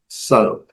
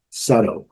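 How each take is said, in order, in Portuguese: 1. O T do meio é um tepe rápido. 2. O T do meio é um tepe rápido.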